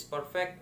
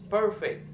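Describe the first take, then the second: First: Said in the usual way. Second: PER of "perfect" punched, then falling; first-syllable stress. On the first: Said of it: "the syllable stress that is perfect". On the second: Shown as a demonstration. Student showing word stress in "perfect", first syllable stressed. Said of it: "the stress in the first".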